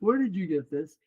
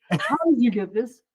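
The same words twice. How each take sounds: First: Said in the usual way. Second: Higher, louder incredulous question; imitated astonishment. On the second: Clerk sees the citizenship certificate, retold astonished demand. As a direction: act out a clerk's baffled outburst.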